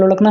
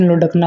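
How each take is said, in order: First: लुढ़कना as "lolakna"; l-like middle sound. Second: लुढ़कना as "lodakna", retroflex stop in the middle; hard ḍ sound. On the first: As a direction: glide through लुढ़कना with no hard ḍ. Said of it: "ऐसे वाला लुढ़कना है". (लुढ़कना में हल्का "ड़" बोलें) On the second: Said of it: "लुढ़कना होता है इस तरह से". (लुढ़कना में साफ़ "ड" बोलें) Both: Shown as a demonstration.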